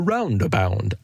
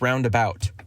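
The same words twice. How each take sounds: First: The word roundabout is pronounced in an odd way. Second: The word roundabout is pronounced in the standard way. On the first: The speaker calls it wrong. "But he kept saying roundabout" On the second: The speaker calls it right. "it's roundabout"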